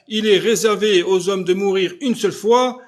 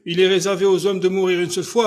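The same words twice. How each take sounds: First: Louder, preaching "une seule fois"; solemn emphatic repeat. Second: Said in the usual way. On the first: Shown as a demonstration. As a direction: hammer home "une seule fois" like scripture.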